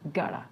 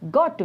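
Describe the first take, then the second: First: The words are reduced to gotta. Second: Both words are said in full.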